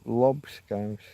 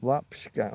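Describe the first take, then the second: First: "lob Scouts" with an open o like lob; lob, not lap. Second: "lap Scout" with a flat a like lap; lap, not lob. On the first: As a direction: lob with a rounded vowel. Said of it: "you're saying lob". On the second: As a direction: lap with an open front vowel. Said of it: "uh, lap". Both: Shown as a demonstration.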